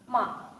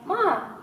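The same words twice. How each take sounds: First: It is said with the tone meaning insult. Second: It is said with the tone meaning mother. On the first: The word means to insult. "means to insult" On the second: The word means mother. "usually means mother"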